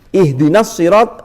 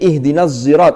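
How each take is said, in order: First: Sirat begins with a plain s sound. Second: Sirat begins with a z-like sound.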